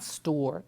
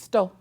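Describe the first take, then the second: First: The word is said with its final sound. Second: The word is said without its final sound. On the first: "it's not store" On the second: "they leave off the ends of words"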